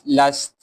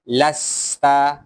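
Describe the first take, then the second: First: The word ends on the consonant t. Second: The word ends with a final a vowel.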